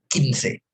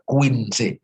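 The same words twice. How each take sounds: First: No 'w' sound is heard after the 'k'. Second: A 'w' sound is heard after the 'k'. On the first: The speaker calls it right. "U-nya bablas anginnya. Nggak, nggak perlu diucapkan ya" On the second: The speaker calls it wrong. "saya nggak mau dengar ada Q U I dibaca Quince"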